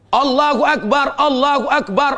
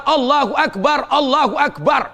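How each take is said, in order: Both takes have the same delivery.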